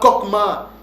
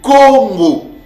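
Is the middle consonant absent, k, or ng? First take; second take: k; ng. First: The middle has a hard k sound. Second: The middle has a nasal ng sound. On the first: The speaker calls it wrong. "Ce n'est pas Kokma" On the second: The speaker calls it right. "Non, c'est Congo"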